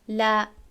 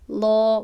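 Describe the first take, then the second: First: The L is light, made at the front. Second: The L is heavy, made at the back. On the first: "اللام المرققه یعنی صدا از پیش دهان خارج می شود" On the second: "اللام المفخمه، لام وقتی که مفخمه باشد یعنی که پر با پرگی خوانده شود"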